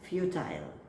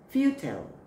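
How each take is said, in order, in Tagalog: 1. Binibigkas ito na may Britanikong aksent. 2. Binibigkas ito na may Amerikanong aksent. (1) "British is futile" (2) "American way is, right?"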